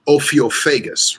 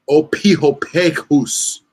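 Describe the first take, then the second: First: The ph is pronounced as an f sound. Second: The ph is pronounced as a p sound. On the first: The speaker calls it wrong. "like we say f, like Phil" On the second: The speaker calls it right. "there is no f sound. It's ph. It's p"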